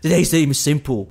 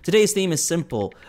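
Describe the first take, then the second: First: It is said in a put-on imitation voice. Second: It is said in the speaker's ordinary voice.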